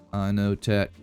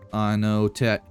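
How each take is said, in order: Both takes have the same delivery.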